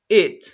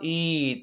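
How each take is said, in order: First: The vowel is short, like i. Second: The vowel is long, like ee. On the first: The speaker calls it right. "a short E" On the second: The speaker calls it wrong. "It's not it"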